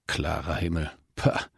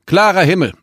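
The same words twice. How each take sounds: First: "Klarer Himmel" muttered softly, with disbelief; scornful mutter. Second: "klarer Himmel" high and loud through a crackling speaker; over a radio. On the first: Acted. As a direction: repeat "Klarer Himmel" under your breath, then scoff "pah". Pilot scoffs at forecast in fog. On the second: A narrator's reading. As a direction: tower radio reading "klarer Himmel", falling at the end. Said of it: "Es knisterte im Lautsprecher".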